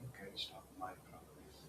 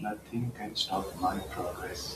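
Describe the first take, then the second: First: It is spoken in a whisper. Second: It is spoken in a normal voice.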